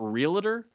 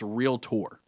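First: The word is said with three syllables. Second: The word is said with two syllables. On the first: The speaker calls it wrong. "It's not realtor" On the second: The speaker calls it right. "it's realtor. If you look at how realtor spelled, R-E-A-L-T-O-R"

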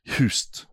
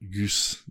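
First: The name begins with an H sound. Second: The name begins with a hard G sound. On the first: The speaker calls it right. "the G is more of an H" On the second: The speaker calls it wrong. "bad pronunciation"

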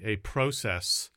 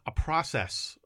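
First: Process is said with a Canadian accent. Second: Process is said with an American accent.

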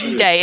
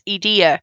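First: The name ends like the word day. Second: The name sounds like idea, starting with E. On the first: The speaker calls it wrong. "people have pronounced it as like E-Day" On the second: The speaker calls it right. "no, it's Edea"

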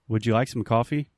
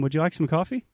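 First: The pitch stays flat at the end. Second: The pitch rises at the end. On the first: It sounds like an angry statement. The speaker calls it wrong. "If I simply say, ... it sounds like a statement" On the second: It is clearly a question. The speaker calls it right. "You hear at the end of the question"

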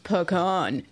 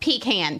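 First: Pecan is said unlike the North Carolina way. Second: Pecan is said the North Carolina way. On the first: The speaker calls it wrong. "your tree is not pronounced the way that you pronounce it. It's pronounced pecan" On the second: The speaker calls it right. "No, it's pronounced pecan, people"

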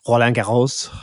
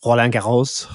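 First: The name is said with a French accent. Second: The same.

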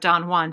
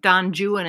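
First: The name is said the American way. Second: The name is said the British way. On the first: "instead of Don Juan" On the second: "British people on purpose say like Don Juan"

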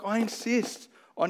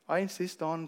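First: It is said in a firm, forceful voice. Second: It is said in a soft, polite voice. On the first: It is a strong, serious command. The speaker calls it right. "No, he's like" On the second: It sounds like a polite request. The speaker calls it wrong. "we read it in a nice little, voice of"

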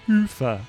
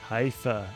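First: The name gets a European-style pronunciation. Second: The name gets an anglicized, English-style pronunciation. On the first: The speaker calls it right. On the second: The speaker calls it wrong.

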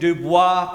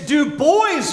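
First: The name is given a French pronunciation. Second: The name is given an English pronunciation. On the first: The speaker calls it wrong. "your boy didn't take Spanish in high school. I took French" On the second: The speaker calls it right. "It's Dubois, you idiot"

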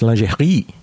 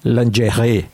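First: The word has a French pronunciation. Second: The word has an American English pronunciation. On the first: The speaker calls it right. "It's a French word" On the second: The speaker calls it wrong. "Americans, they say lingerie"

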